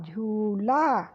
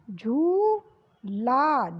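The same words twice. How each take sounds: First: झूला short and lower, falling; quick repeat. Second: झूला with a long stretched ऊ; slow drawn. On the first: (झूला जल्दी दोहराना) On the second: (झूला को खींचकर) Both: Shown as a demonstration. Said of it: "ऊ की मात्रा लगी".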